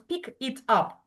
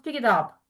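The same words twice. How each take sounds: First: Each word is said with a break between. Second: The words run smoothly together without breaks. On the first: The speaker calls it wrong. "we don't pronounce" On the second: The speaker calls it right. "we connect these words together"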